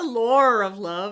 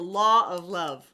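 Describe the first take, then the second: First: The word law ends with an R sound. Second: The word law ends with no R sound. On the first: The speaker calls it wrong. "You you say lar, lar" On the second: The speaker calls it right. "There's no R"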